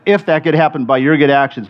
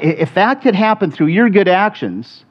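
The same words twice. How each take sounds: First: "if" leaned on at the start of the phrase; stress on IF. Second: Said in the usual way. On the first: Shown as a demonstration. Preacher repeating Paul's verse, stress on "if". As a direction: set "if" apart as a real condition. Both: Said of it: "I'll stress the word if".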